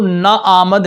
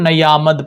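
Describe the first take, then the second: First: The two vowels meet with no y sound. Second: A y sound links the two vowels. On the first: The speaker calls it wrong. "ना आमद नहीं पढ़ेंगे" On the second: The speaker calls it right. "बल्कि उसको नयामद पढ़ेंगे"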